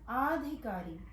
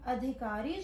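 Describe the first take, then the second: First: The first vowel is a long aa. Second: The first vowel is a short a. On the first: The speaker calls it wrong. "उसको बोलते हैं आधिकारी" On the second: The speaker calls it right. "अधिकारी जो शब्द है"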